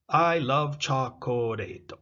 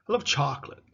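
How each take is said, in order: First: Every syllable of chocolate is fully pronounced. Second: The middle syllable of chocolate is dropped. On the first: "So syllable time language" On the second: "You see the co disappears"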